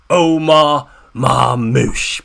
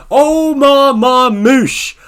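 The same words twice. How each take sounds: First: Drawn-out name call. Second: Long, loud, high hype call of the name "Omar Marmoush"; hype shout. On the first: Hyping his star player. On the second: Fan cheering his player's name to viewers, loud and slow. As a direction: stretch out "Omar Marmoush" like a stadium announcer. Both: Real, not acted.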